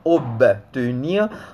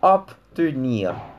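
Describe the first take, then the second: First: The consonant before T sounds like B. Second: The consonant before T sounds like P. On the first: The speaker calls it wrong. "on ne dit pas obtenir" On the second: The speaker calls it right. "on dit obtenir"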